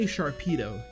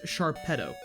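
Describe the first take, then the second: First: The ending sounds like the end of torpedo. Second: The ending does not sound like torpedo. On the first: The speaker calls it right. "because it's he's like a torpedo" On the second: The speaker calls it wrong. "I don't think that's what it's supposed to be"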